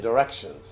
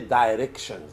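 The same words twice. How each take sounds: First: The word is said quickly and run together. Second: The word is said slowly, syllable by syllable. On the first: The speaker calls it right. "you say it kind of fast" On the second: The speaker calls it wrong. "you don't say directions"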